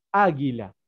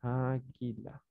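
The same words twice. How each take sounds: First: "Águila" with the accented first syllable stressed. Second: Very soft, slow "Águila", syllables drawn out; dictating. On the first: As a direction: hit the Á at the start of "Águila". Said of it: "Con tilde en la A". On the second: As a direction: murmur "Águila" slowly while writing it. Sounds word out while writing it. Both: Shown as a demonstration.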